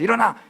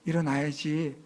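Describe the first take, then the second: First: It is said in a rough, harsh voice. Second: It is said in a sweet, gentle voice.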